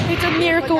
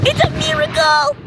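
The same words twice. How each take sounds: First: Said in the usual way. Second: High ecstatic shriek; shrieking jackpot winner. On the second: Pretend. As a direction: scream it like you won the lottery. Shrieking over fireworks.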